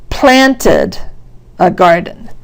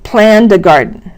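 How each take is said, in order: First: "planted a garden" with plan-ted in two clear beats; two-syllable "planted". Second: "planned a garden" with planned as one syllable; one-beat "planned". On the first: Teacher contrasting syllable counts, two-beat "planted". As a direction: lift and separate both syllables of "planted". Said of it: "definitely has two syllables". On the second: Teacher testing syllable counting, one-beat "planned". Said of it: "How many syllables do you hear". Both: Shown as a demonstration.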